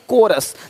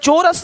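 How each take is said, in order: First: The word begins with a k sound. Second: The word begins with a ch sound. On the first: The speaker calls it right. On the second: The speaker calls it wrong. "चोरस नहीं"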